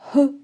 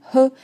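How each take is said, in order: First: The sound has weak, light friction. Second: The sound has weak, light friction.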